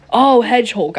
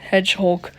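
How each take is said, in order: First: Hedgehulk with a clear H, "Hedge-hulk"; correct pronunciation. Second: Hedgehulk said as "Edge-hoke", no h; dropping the h: "Edge-hoke"; wrong pronunciation. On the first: Narrator correcting Hedgehulk to "Hedge-hulk". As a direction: say Hedgehulk with the h sounded. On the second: Narrator mispronouncing Hedgehulk, "Edge-hoke". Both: Shown as a demonstration. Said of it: "I was pronouncing it wrong".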